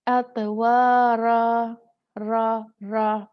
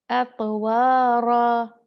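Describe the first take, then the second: First: "एतवारा" with the tongue too far back, no trill; slow, stretched, and loud, "रा" without any flap; wrong ra. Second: "एतवारा" slow and loud with a light trill on "रा"; correct ra. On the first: Teacher reading it wrong on purpose, loud and slow "एतवारा". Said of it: "पहले मैं आपको गलत पढ़ के सुनाती हूँ।". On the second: Teacher now reading it correctly, slow stressed "एतवारा". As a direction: stretch it, tongue tip at the ridge. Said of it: "अब मैं सही करूँगी।". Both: Shown as a demonstration.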